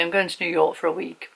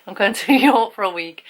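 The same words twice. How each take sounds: First: Said in the usual way. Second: A laugh breaks in on New York, a bit louder; giggling as she repeats the trip news. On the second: Real, not acted. Telling her subscribers about New York, giggling. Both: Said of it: "I'll tell you anyway".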